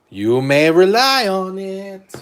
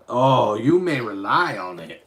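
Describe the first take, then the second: First: Much louder, higher and slow oracle; hammed-up mystic pronouncement; booming oracle voice. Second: Lightly voiced mystic oracle, louder; mock oracle pronouncement; magic eight ball voice. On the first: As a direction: proclaim it grandly, like a fortune teller. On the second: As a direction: read the answer like a fortune teller. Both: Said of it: "Magic Eight Ball".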